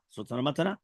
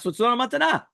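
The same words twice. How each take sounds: First: Quiet echo. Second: High, pressed "matana" landing on a fall; emphatic conclusion. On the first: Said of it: "repeats conclusion, second take". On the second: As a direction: drive home "matana" higher and firmer. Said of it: "repeats conclusion, first take". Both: Shown as a demonstration.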